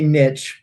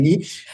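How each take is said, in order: First: Niche with a short i and a tch ending; niche as "nitch". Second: Niche with a long ee and a soft sh ending; niche as "neesh". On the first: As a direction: say niche to rhyme with rich. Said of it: "I say niche". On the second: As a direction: say niche to rhyme with leash. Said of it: "you like saying niche". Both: Shown as a demonstration.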